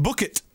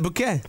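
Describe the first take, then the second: First: "Bucket" said as the everyday word for a pail; plain English pronunciation. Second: "Bouquet" ending in an open -ay; posh French-style pronunciation. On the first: Comparing the surname to Hyacinth's, plain "Bucket". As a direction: say "Bucket" with a hard final t. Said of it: "but she likes to call it Bouquet". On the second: Showing how Hyacinth prefers her surname, French-style "Bouquet". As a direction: say "Bouquet" like flowers, silent t. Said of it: "she likes to call it Bouquet". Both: Shown as a demonstration.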